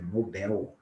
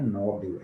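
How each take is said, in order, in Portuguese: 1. A tônica está na última sílaba. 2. A tônica está na primeira sílaba. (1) "é Nobel" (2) "A palavra não é Nobel"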